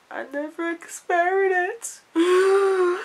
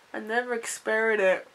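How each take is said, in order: First: Drawn-out disbelief. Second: Said in the usual way. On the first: Real, not acted. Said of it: "repeated, drawn out". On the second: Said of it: "repeated line".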